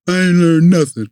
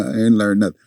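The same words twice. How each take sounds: First: High, louder, sulky retort; imitating his angry younger self; mad kid. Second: Said in the usual way. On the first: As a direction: spit out I ain't learned nothing like a fed-up boy. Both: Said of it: "You know, I'm mad".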